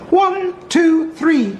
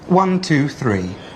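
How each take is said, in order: First: It is said in a raised, higher-pitched voice. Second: It is said in a normal, lower male voice.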